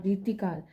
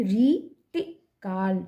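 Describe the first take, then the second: First: Said in the usual way. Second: रीतिकाल very slowly, long री, short ति; syllable by syllable. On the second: Shown as a demonstration. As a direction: break up रीतिकाल, holding री. (रीतिकाल तोड़कर, 'री' खींचकर) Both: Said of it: "र में बड़ी की".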